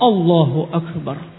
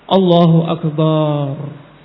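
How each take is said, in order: First: The vowels are kept short and direct. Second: The vowels are stretched out very long. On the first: The speaker calls it right. "Langsung Allahu Akbar" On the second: The speaker calls it wrong. "atau banyak panjang"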